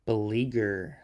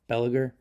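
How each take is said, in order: First: Beleaguer as buh-LEE-ger, long "ee" stressed; corrected pronunciation. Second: Biliger said as BEL-uh-ger, stress on the first syllable; wrong pronunciation. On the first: Shown as a demonstration. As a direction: Beleaguer repeated carefully, stress on LEE, rising tune. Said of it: "robot voice here". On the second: Real, not acted. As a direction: Biliger read wrongly as BEL-uh-gur, short "e" at the start. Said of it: "completely wrong".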